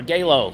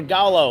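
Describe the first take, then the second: First: First syllable of Galo rhymes with "day". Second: Gallo said "GAH-loh"; first syllable of Gallo rhymes with "spa". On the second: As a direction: say Gallo with an open "ah" first vowel. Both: Shown as a demonstration. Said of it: "How do you say it?".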